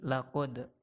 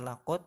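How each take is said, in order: First: The final d is released with a bounce. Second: The final d is plain with no bounce. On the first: The speaker calls it right. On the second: The speaker calls it wrong. "jangan dibaca laqad"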